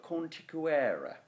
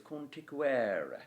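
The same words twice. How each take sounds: First: Conticuere said slowly with a falling stress; word stress. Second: Conticuere with its natural Latin stress; natural word stress. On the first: Teacher showing how to stress conticuere. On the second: Teacher correcting the stress of conticuere. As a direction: stress conticuere the way Romans spoke it. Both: Shown as a demonstration. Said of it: "you actually stress that word as conticuere".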